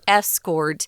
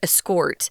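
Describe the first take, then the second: First: The stress is on the first syllable. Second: The stress is on the second syllable. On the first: It is used as a noun. "the noun form would be escort" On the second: It is used as a verb. "the verb escort"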